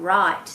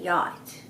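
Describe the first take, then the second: First: The word begins with an R sound. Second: The word begins with a Y sound. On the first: The speaker calls it right. "r sound" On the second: The speaker calls it wrong. "they'll say"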